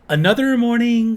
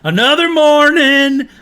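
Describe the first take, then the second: First: It is said in a Northern US accent. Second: It is said in a Southern US accent. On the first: "the dude has a northern accent ... how he goes" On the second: "I got that southern twang"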